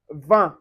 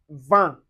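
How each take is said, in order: First: Vin slowly, vowel through the nose; slow nasal vin. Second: Vin with nasal vowel, no n; nasal French vin. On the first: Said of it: "vin, which means wine". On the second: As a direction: say vin through the nose. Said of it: "you can find it in word like vin". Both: Shown as a demonstration.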